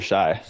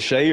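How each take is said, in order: First: The vowel sounds like 'eye' in 'my'. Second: The vowel sounds like 'ay' in 'day'. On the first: "pronounce it Shay or Shy?" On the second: "pronounce it Shay or Shy?"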